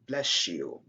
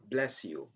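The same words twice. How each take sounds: First: The s and y merge into a sh sound. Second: The s and y are said as separate sounds. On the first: "it's better to say" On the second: "many people would say"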